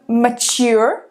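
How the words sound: It is said with an American accent.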